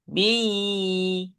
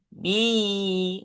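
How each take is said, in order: The two takes are said the same way.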